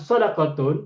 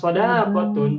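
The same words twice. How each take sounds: First: The vowel in the second syllable is short. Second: The vowel in the second syllable is long. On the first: It means charity. "daknya pendek" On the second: It means friendship. "daknya panjang"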